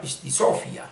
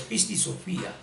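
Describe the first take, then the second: First: "pistisofia" with the stress moved to SO, pistiSÓfia; wrong stress. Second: "pistisofía" with the stress on FÍ, pistisoFÍa; corrected stress. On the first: Teacher quoting mistaken translators, misplaced stress. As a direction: mispronounce "pistisofia" by stressing the "so", not the "fi". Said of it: "No, no es pistisofia". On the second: Teacher correcting the translators, stress on the í. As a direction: say "pistisofía" with a clearly separated, accented í. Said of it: "con tilde". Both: Shown as a demonstration.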